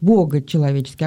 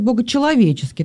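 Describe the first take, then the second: First: The emphasis falls on the first part, бого. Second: The emphasis falls on the second part, человеческий. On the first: The divine side of the church is highlighted. "ударение на Бога сделать" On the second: The human side of the church is highlighted. "а можно сказать"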